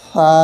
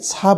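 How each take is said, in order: First: The consonant is soft with no hissing air. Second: The consonant is a hissing s-like sound. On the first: The speaker calls it right. "খুবই দুর্বল নরমভাবে খুব সফটলি মোলায়েম" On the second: The speaker calls it wrong. "ছা উচ্চারণটা আসলে কখনোই সঠিক নয়"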